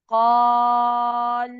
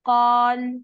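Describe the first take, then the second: First: The long vowel is held for six counts. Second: The long vowel is held for two counts. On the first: "छह हरकत" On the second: "पहला तरीका क्या है कि हम सिर्फ और सिर्फ दो हरकत देके पढ़े"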